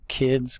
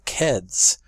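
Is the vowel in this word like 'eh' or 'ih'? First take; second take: ih; eh. First: The vowel is a short 'ih' sound. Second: The vowel is an 'eh' sound. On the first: "The I sound" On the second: "goes to eh"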